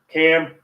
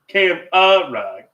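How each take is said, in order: First: It is said with two syllables. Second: It is said with three syllables.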